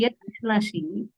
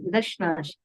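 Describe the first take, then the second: First: The two words are said separately with a break. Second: The two words are run together as one word. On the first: The speaker calls it wrong. "that's not a proper way of pronunciation" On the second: The speaker calls it right. "should be together"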